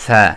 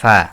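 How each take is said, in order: First: It begins with an f sound. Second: It begins with an f sound.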